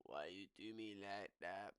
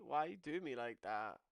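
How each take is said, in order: First: Lower, softer, wounded; low mock-hurt plea. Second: Said in the usual way. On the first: Shown as a demonstration. Pleading with Zerka, low mock-hurt whine. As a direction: sulk it at Zerka.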